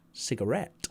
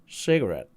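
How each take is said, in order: First: The stress is on the last syllable. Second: The stress is on the first syllable. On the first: This is the British way of saying it. "with the French stress on et" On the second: This is the American way of saying it. "with the stress on cig"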